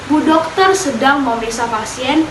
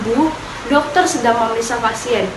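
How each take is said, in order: First: It runs on with no pause after 'Bu'. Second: There is a pause right after 'Bu'. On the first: A female doctor is examining a patient. "Kalimat pertama mempunyai makna seorang perempuan yang berprofesi sebagai dokter sedang memeriksa pasiennya" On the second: A woman is being told the doctor is examining a patient. "seperti memberi informasi kepada seorang perempuan bahwa dokter sedang memeriksa pasiennya"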